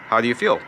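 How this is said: The question is said in a flat pitch. "if you say it flat"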